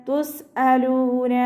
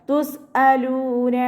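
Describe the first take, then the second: No difference in how they are said.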